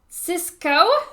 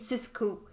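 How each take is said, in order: First: The final vowel is an 'oh' sound. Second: The final vowel is an 'oo' sound.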